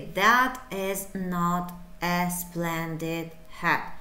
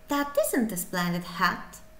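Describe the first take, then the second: First: The words 'is not' are said in full. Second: The words 'is not' are contracted to isn't. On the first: The speaker sounds dull. The speaker calls it wrong. "you will be dull" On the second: The speaker sounds lively and active. The speaker calls it right. "you should be very active"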